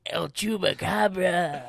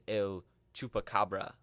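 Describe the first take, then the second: First: Put-on slow, loud El Chupacabra in a Spanish accent. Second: El Chupacabra in a hammed-up Spanish accent. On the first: Echoing the Spanish accent joke. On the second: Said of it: "You didn't like my Spanish accent there?".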